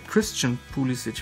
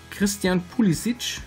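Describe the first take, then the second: First: The name is pronounced the English way. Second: The name is pronounced the German way.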